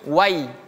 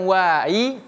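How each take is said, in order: First: The vowel is kept short and steady. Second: The vowel is drawn out and swung. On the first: The speaker calls it right. "tapi wai" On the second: The speaker calls it wrong. "Bukan wai ... Tidak boleh kita dipanjangkan atau diayunkan"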